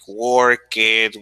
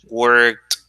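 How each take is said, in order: First: The ending is said as an extra syllable. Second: The ending is said as a single t sound. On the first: The speaker calls it wrong. "you don't say" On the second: The speaker calls it right. "the right pronunciation"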